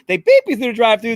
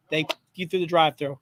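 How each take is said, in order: First: Mock tough-guy voice, higher and louder; hammed-up gangster imitation, punching beep; Pesci impression. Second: Said in the usual way. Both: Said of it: "I'm doing my best, Pesci".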